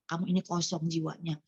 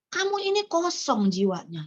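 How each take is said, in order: First: Quiet repeat. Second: Said in the usual way. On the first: Shown as a demonstration. Repeating God's words to her spiritual daughter, softer and lower. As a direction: lower and softer, letting it sink in. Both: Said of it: "saya bilang ya".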